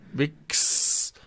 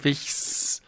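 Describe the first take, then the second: First: The middle consonant is a hard k sound. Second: The middle consonant is a soft fricative. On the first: The speaker calls it right. "Wix statt Wichs" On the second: The speaker calls it wrong. "Da brauchst du das K"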